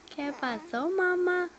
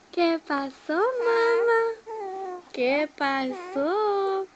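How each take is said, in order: First: Said in the usual way. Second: Mamá lifted high and loud. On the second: Real, not acted. Parent cooing to her baby, high sing-song.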